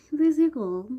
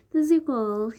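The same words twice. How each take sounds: First: Much higher, louder repeat of the sign-off; a squealed channel tag; higher signature sign-off. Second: Higher, louder sign-off catchphrase; bright sign-off call; signature sign-off. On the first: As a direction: push the catchphrase even higher. Vlog sign-off catchphrase. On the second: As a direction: sing out your channel tag. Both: Pretend.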